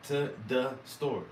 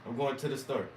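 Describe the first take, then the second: First: To said as ta, slow; To the store with To as ta; southern ta. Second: Said in the usual way. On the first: Shown as a demonstration. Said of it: "I say to". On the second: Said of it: "if I'm just trying to talk normal".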